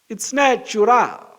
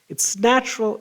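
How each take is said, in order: First: It is said with a put-on Portuguese accent. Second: It is said in the speaker's normal accent.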